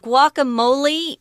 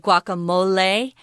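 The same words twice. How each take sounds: First: The word ends with an E sound. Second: The word ends with an A sound. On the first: "Guacamole is the English pronunciation" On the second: "with an A at the end instead of an E"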